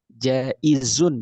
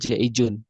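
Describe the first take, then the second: First: The middle consonant is a z sound. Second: The middle consonant is a j sound. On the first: The speaker calls it right. "Jaizun bukan jaijun" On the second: The speaker calls it wrong. "Salah di diperbaiki makhrajnya"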